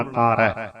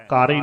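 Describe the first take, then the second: First: "ਕਾਰੈ" ending in a wide open ai. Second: "ਕਾਰੇ" ending in a close e; narrow e ending. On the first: Teacher models the correct word, open ai in "ਕਾਰੈ". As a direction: open the last vowel of "ਕਾਰੈ". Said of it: "ਦੁਲਾਈਆਂ ਬੋਲਣ ਵੇਲੇ ਵੀ ਖਿਆਲ". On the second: Teacher shows what not to say, close e in "ਕਾਰੇ". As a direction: end "ਕਾਰੇ" on ay. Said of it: "ਕਾਰੇ ਨਹੀਂ ਬੋਲਣਾ". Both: Shown as a demonstration.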